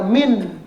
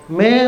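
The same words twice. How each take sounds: First: The n sound is pronounced clearly. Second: The n sound is hidden and blurred. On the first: The speaker calls it wrong. "Nggak boleh dibaca min ya. Kalau min nanti izhar" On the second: The speaker calls it right. "Bacanya min samar"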